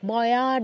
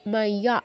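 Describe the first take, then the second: First: It begins with a plain 'mo' and no glide. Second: It begins with a 'mai' glide before 'ya'. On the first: The speaker calls it wrong. "ময়া নয়" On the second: The speaker calls it right. "ইয়া, মাইয়া"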